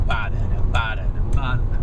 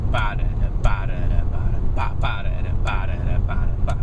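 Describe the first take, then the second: First: "ba-da-da" sung with the accent on each first "ba"; accents on downbeats. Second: "ba-da-da, ba-da-da" punched on the first "ba" each, last accent held to the final "ba"; shifted triplet accents. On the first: Guitar teacher showing students plain downbeat triplet accents, rhythmic scat. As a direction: hit the first "ba" of every "ba-da-da", even pulse. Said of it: "not just accenting downbeats".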